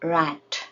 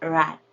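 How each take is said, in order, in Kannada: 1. ಕೊನೆಯ 't' ಪೂರ್ತಿ ಬಿಡುಗಡೆಯಾಗುತ್ತದೆ. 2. ಕೊನೆಯ 't' ಹಿಡಿದಿಡಲಾಗುತ್ತದೆ, ಬಿಡುಗಡೆಯಾಗುವುದಿಲ್ಲ.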